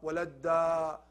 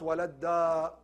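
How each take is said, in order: The two takes are said the same way.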